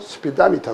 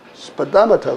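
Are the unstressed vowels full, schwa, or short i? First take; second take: short i; schwa. First: Some unstressed vowels are reduced to short i. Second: The unstressed vowels are reduced to schwa. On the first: "삼 번으로 약해지면 스피다미터 그래요" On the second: "일 번으로 읽으면 스파다마터 그래요"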